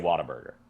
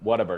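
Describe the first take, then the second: First: The first syllable sounds like 'watt'. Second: The first syllable sounds like 'wut'. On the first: This is how the speaker says it. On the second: This is how the other speaker says it.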